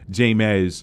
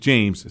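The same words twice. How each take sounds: First: The name is sounded out from its unusual spelling. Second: The name sounds like the ordinary name James. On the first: The speaker calls it wrong. "I said it wrong in the pre-review" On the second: The speaker calls it right. "but it's James Samuel"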